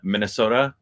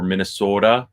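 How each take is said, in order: First: It is said in a standard, non-local accent. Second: It is said in a local Minnesotan accent.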